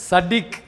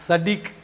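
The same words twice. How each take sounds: Both takes have the same delivery.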